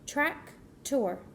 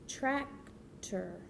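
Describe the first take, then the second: First: There is a pause between the two syllables. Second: The two syllables run smoothly without a pause.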